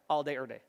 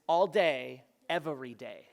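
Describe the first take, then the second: First: The word 'every' is squeezed down to 'er'. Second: The word 'every' is said fully, with both syllables. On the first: "take the word every and you smash it together" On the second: "all day, er day means all day, every day"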